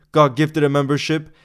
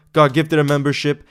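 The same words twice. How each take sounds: The two takes are said the same way.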